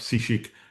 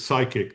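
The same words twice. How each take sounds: First: The word is pronounced a non-English way. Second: The word is pronounced the usual English way. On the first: The speaker calls it wrong. "not psychic" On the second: The speaker calls it right. "the word we say in English is psychic"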